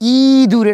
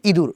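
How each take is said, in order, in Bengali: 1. প্রথম স্বরধ্বনিটি টেনে দীর্ঘ করে বলা হয়। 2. প্রথম স্বরধ্বনিটি হ্রস্ব রাখা হয়। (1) "এটা বলা যায় না" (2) "ওটা হ্রস্ব ই"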